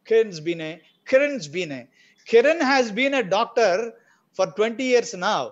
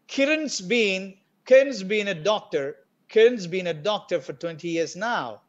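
First: The verb 'has' is said as a full word. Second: The verb 'has' is contracted onto the name.

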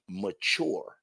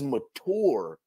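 First: The middle consonant is a ch sound. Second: The middle consonant is a plain t sound. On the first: This is the version the person avoids saying. "he doesn't want to say mature. The ch is a problem" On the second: This is the version that is easier to say. "He says mature"

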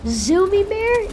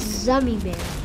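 First: The first vowel is a long 'oo' sound. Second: The first vowel is a short 'uh' sound. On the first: The speaker calls it wrong. "You've been pronouncing Zummy Bear wrong" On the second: The speaker calls it right. "Zummy Bear, like Gummy Bear"

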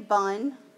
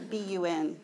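First: It is said as a single word. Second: It is spelled out letter by letter. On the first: The speaker calls it wrong. "don't say bun" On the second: The speaker calls it right. "It's a BUN, okay?"

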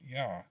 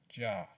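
First: The word begins with a Y sound. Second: The word begins with a J sound. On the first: The speaker calls it wrong. "not Yah" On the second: The speaker calls it right. "as Jah"

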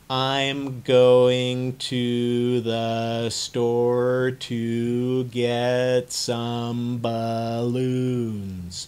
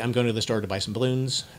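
First: It is said very slowly and drawn out. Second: It is said fast.

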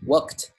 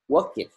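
First: The ending is a short t sound. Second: The ending adds an extra 'id' syllable. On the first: The speaker calls it right. "Chúng ta đọc là worked" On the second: The speaker calls it wrong. "chúng ta không đọc là work it"

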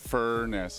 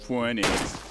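First: The word is said with a clear R sound. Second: The word is said with a W sound. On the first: The speaker calls it right. "There's an R" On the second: The speaker calls it wrong. "not a W"

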